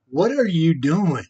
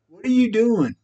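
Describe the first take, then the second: First: Said in the usual way. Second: Higher, pressing repeat of the question; exasperated demand. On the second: Real, not acted. Repeating the question to Lisa, exasperated.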